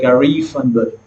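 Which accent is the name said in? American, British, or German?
American. The name is said with an American accent. "I met some Americans"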